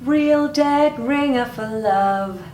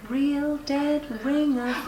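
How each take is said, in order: First: It is said loudly. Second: It is said quietly.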